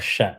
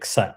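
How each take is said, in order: First: It begins with sh and no k. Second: It begins with a k followed by s. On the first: "or sha" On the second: "You cannot say ksa"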